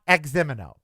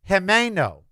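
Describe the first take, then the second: First: The name begins with a Z-like sound. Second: The name begins with a J-like sound. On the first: The speaker calls it wrong. "It is not Ximeno" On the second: The speaker calls it right. "It's Jimeno"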